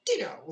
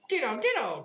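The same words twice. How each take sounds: First: Lightly voiced Tweedledum, a touch higher; a curt little twin's ditto; hint of a smug twin brother. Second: Higher crying Tweedledee; a twin outdoing his brother, up high. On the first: Tweedledum answers Alice. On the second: Acted. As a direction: cry it out, much higher. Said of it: "cried Tweedledee".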